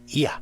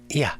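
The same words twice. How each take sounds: First: The opening i glides briefly and weakly into a. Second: The opening i glides briefly and weakly into a.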